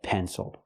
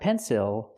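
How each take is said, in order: First: The second syllable has a relaxed uh sound. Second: The second syllable has a clear short I sound. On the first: The speaker calls it right. "but pencil. Is the closed, relaxed sound uh" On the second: The speaker calls it wrong. "Not pencil"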